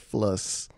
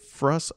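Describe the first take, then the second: First: The word begins with an fl sound. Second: The word begins with an fr sound. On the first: The speaker calls it wrong. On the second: The speaker calls it right.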